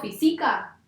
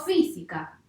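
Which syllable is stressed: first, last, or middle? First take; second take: middle; first. First: The stress falls on the middle syllable. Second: The stress falls on the first syllable. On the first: The speaker calls it wrong. "tampoco va a ser grave" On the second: The speaker calls it right. "entonces va a ser una palabra esdrújula"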